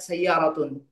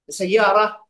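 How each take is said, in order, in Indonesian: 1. Vokal terakhir dan akhiran n dilafalkan. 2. Kata ini berakhir tanpa akhiran vokal terakhir.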